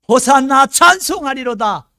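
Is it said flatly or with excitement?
excitement. It is said with joyful excitement.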